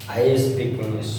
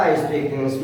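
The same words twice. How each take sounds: First: Each word of "I speak English" drawn out slowly for the class; teacher spelling out a sentence at dictation pace. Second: Said in the usual way. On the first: Shown as a demonstration. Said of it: "मैं बहुत ही slowly बता रहा हूँ". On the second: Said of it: "मेरे साथ आप बोलिए".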